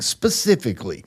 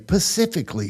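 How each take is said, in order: First: The word begins with an 'spe' sound. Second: The word begins with a 'pa' sound. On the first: The speaker calls it right. "instead of saying specifically" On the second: The speaker calls it wrong. "They say pacifically speaking"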